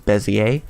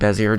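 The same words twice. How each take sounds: First: The word is pronounced differently from its spelling. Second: The word is pronounced the way it is spelled. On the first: The speaker calls it right. "correct pr pronunciation is Bezier" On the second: The speaker calls it wrong. "I call it Bezier just because it looks like what it sounds"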